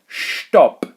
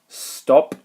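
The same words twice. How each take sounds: First: It begins with a sh sound. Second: It begins with a plain s sound. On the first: The speaker calls it right. "as if there's a little invisible H in here" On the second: The speaker calls it wrong. "not stop"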